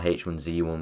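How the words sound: The name is said the American way.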